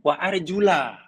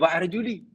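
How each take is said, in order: First: The word ends with an 'a' vowel. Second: The word ends with an 'i' vowel. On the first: The feet must be washed. "kebanyakannya wa arjula bacanya" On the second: The feet only need to be wiped. "Kalau baca wa arjuli"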